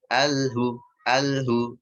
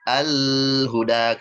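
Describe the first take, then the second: First: Alhu stopped short at the l; wrong: lam broken off; cut-off lam. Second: Al-huda with the l dragged out very slowly; wrong: lam held far too long; overlong lam. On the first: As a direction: clip alhu, voice halts after the l. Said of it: "Bukan alhu". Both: Shown as a demonstration.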